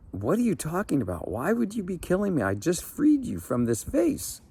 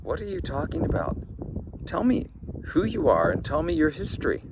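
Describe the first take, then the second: First: Higher, fast, rising panic; a frightened old man arguing for his life; indignant, panicky old fisherman; alarmed protest. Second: Higher, fast, bewildered questions; a startled old fisherman demanding answers; lightly voiced, puzzled old man; baffled old man. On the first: Acted.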